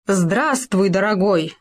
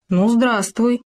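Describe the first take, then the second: First: Heartfelt greeting. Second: Said in the usual way. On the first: A narrator's reading. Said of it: "проникновенно сказал Хома".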